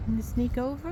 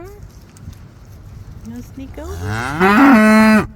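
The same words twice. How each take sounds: First: Said in the usual way. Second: Very slow, louder singsong tease; drawn-out teasing. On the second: Real, not acted. Farmer teasing a shy calf in a slow, drawn-out singsong. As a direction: stretch it out to coax the calf.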